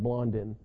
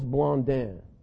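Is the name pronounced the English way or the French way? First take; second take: English; French. First: The name is pronounced the English way. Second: The name is pronounced the French way. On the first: "We probably said Blondin" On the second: "That's the way you pronounce it in French"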